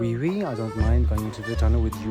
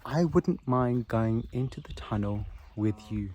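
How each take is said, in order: First: It is said in a put-on French accent. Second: It is said in the speaker's normal accent.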